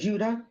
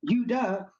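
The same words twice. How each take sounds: First: The word begins with a J sound. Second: The word begins without a J sound. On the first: "take the J off of Judah" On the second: "there was no J back then"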